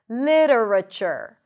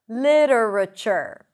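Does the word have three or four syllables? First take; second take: four; four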